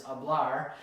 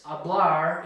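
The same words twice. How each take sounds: First: Hablar with BLAR stressed; correct stress. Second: Hablar with the first syllable HA stressed; wrong stress. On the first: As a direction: lean on the last syllable of hablar. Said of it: "gonna be the very last syllable". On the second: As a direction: wrongly punch the start of hablar. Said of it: "and not hablar". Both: Shown as a demonstration.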